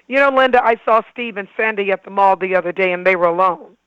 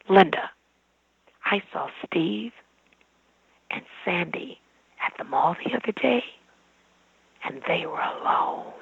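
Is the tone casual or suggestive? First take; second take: casual; suggestive. First: It is said in a casual, matter-of-fact tone. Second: It is said in a suggestive, insinuating tone.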